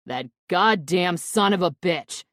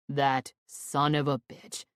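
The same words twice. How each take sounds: First: Loud furious outburst; angry shout. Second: Grind the words out slowly; seething anger. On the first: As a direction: explode at the betrayal. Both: A narrator's reading. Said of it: "Quinn shouts angrily".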